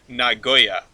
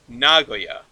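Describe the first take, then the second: First: The stress is on the second syllable. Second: The stress is on the first syllable. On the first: "like emphasis on the second syllable" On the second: "you put the emphasis on the first syllable"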